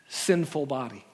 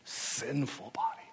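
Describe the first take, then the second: First: It is said in a neutral tone. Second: It is said with strong disdain.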